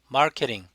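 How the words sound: The r is sounded and the t is flapped. "미국식은 마케팅"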